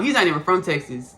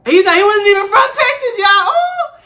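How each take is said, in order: First: Said in the usual way. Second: Loud, very high-pitched squeal of indignation; indignant outburst. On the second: Real, not acted. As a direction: cry it out high and loud, scandalized. Indignant outburst about the substitute.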